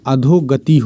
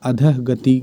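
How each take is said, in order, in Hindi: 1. पहला भाग एक 'o' स्वर पर खत्म होता है। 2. पहला भाग एक साँस वाले 'ah' पर खत्म होता है। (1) "होती है शुद्ध" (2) "गलत है"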